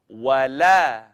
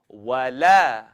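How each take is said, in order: The two takes are said the same way.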